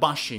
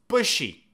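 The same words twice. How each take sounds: First: The first vowel differs from the vowel in 'book'. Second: The first vowel matches the vowel in 'book'. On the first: The speaker calls it wrong. "It's not bushy. No, no, no" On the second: The speaker calls it right. "It's bushy. Like book"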